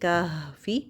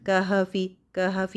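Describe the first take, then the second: First: The h sound is held steady without bouncing. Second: The h sound is shaken with a bounce. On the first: The speaker calls it right. "बस एक ही दफ़ा मखरज को टच करना है" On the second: The speaker calls it wrong. "ऐसे नहीं करना"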